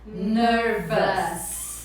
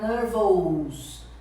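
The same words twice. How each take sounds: First: The ending is said like English 'us'. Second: The ending is said with a Portuguese accent. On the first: The speaker calls it right. "se você quiser falar em inglês bonito, você vai falar nervous" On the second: The speaker calls it wrong. "Você não pode pronunciar nervous, né? Fica feio, é um sotaque em português"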